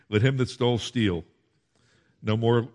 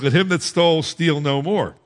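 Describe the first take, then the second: First: There is a break right after steal. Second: It runs on without a break after steal.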